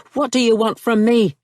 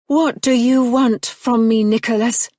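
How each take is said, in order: First: Louder, higher, stress on what; pointed echo. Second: Put-on higher, louder, refined English accent; true cultured accent. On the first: Nicholas turns her question back on her, sharp and pointed. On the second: Marianne confronts Nicholas in her cultured English accent. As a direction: drop the brogue into cultured English. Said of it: "she'd spoken in her true accent at last". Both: A narrator's reading.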